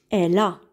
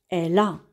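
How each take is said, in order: Both takes have the same delivery.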